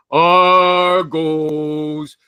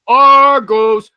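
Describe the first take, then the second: First: Long drawn-out chanted Argos; stadium chant. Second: Loud, slow drawn-out cheer of the team name; excited fan cheer. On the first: Retold or imitated. Host imitates the Toronto football crowd chant, drawn out. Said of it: "there's a chant". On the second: Shown as a demonstration. Host shows how he'd greet an Argos fan, with a loud, slow cheer. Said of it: "what I'm gonna say".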